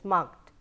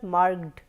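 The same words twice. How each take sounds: First: The ending is a voiceless t sound. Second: The ending is a voiced d sound. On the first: The speaker calls it right. "it is t" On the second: The speaker calls it wrong. "it is not marked"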